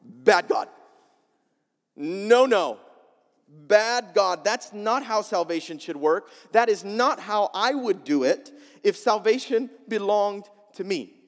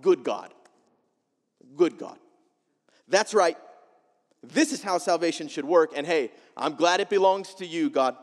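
First: "Bad God" said louder, like scolding a dog; mock scolding. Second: "Good God" said with satisfied, nodding approval; smug approval. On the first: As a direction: wag a finger at God, disapproving. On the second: Retold or imitated. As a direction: pat God on the back, pleased with yourself. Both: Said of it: "Jonah thought".

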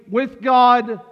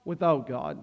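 First: "with God" called out high and loud. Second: "without God" dropped low and soft; low quiet "without God". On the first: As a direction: lift "with God" to a triumphant peak. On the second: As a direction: let "without God" sink to a hush. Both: Shown as a demonstration. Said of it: "the drastic difference between".

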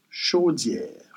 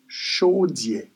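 First: "chaudière" as French 'sho-dyehr'; French pronunciation. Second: "chaudière" as Creole 'sho-dyeh', no r; Creole pronunciation. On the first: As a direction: finish "chaudière" on a soft French r. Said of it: "And in French is". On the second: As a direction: leave "chaudière" open at the end: sho-DYEH. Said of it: "In Creole". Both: Shown as a demonstration.

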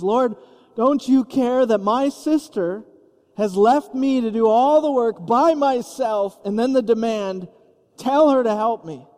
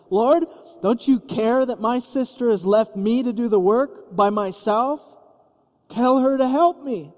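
First: Martyr complaint. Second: Mock-exasperated, pitch climbing to the demand; bursting with Martha's fed-up frustration, slowing on "by myself"; exasperated complaint. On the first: Acted. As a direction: play the put-upon martyr. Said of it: "now playing the martyr". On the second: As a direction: Martha scolding Jesus about her sister, exasperated. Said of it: "so exasperated and infuriated".

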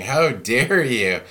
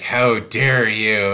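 First: Drawn-out, slowed, offended pearl-clutcher; mock outrage. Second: Slow, louder, offended demand; mock indignant outrage. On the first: To the pastor who rebuked her, mock indignant. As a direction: play the scandalised church lady, dragging it out. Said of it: "clutching your pearls and going". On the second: Angry congregant scolding the pastor, hammed-up outrage. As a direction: stretch it out like a scandalised churchgoer. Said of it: "when they get mad".

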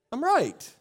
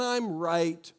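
First: Right said higher, falling; tossed off, self-assured; smug. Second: Insistent. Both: Retold or imitated. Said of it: "we say things like".

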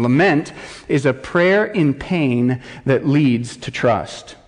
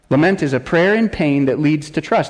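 First: Slow, weighty definition read; measured, emphatic reading; slow deliberate definition. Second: Said in the usual way. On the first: Shown as a demonstration. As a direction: lay each word down slowly. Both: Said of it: "here is his working definition".

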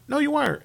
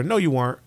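First: Second take pitched way up and softer; mock the team's hopes in a high voice; high mocking retort. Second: Said in the usual way. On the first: Podcaster mocking the team, high mocking retort.

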